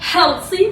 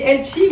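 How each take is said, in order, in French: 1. Il est prononcé avec un accent américain. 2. Il est prononcé avec un accent français.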